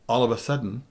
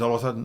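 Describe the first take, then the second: First: Each word is said separately and clearly. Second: The words are run together into one. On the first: The speaker calls it right. "is three words" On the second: The speaker calls it wrong. "is one"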